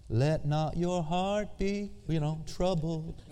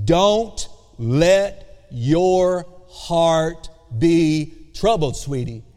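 First: Quiet, slow and sugary, like a greeting card; gentle greeting-card recital; soft postcard reading. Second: Firm imperative with a tender tag; emphatic command. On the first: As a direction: read it softly like a Hallmark card verse. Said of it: "that sounds really good on a postcard". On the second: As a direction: hit "Don't" hard and slow, then soften on "sweetie". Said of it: "the way He really said it is". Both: Shown as a demonstration.

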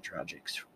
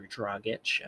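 First: Dragic said DRAH-jick, with a soft g; habitual pronunciation. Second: Dragic said DRAH-gitch, ending in "itch"; alternative pronunciation. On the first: Host gives his usual version of the name, Dragic as DRAH-jick. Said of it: "I have always said Dragic". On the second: Host corrects himself on the player's name, Dragic as DRAH-gitch. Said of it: "I don't know how you pronounce it". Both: Shown as a demonstration.

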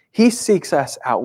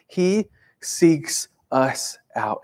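First: Said in the usual way. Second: "He seeks us out" drawn out very slowly, each word set apart; slowed-down emphatic restatement of "He seeks us out"; slow, weighty repeat. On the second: Shown as a demonstration. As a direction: let "He seeks us out" land slowly and heavily. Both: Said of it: "repeats the line slower".

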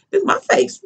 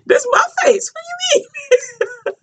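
First: High, hushed disbelief; a light mock of a stunned high voice; high stunned protest. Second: High shout cracking into laughter; hammed-up high yell while laughing. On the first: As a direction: squeak it out in shock. Retold reaction to being grabbed. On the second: Retelling the face grab, laughing.

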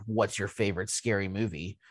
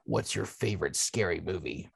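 First: Lower, softer creepy caller voice; quiet menacing horror-movie caller; Ghostface voice. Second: Low, soft creepy caller voice; Ghostface voice. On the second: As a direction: lower and softer, like a menacing phone caller. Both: Acted. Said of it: "in my best ghost vo-, Ghostface voice".

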